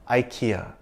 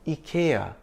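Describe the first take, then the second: First: IKEA is said with an American-style pronunciation. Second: IKEA is said with a Swedish-style pronunciation. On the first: "like the American and Indian ads" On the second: "if we want to say it the authentic Swedish way"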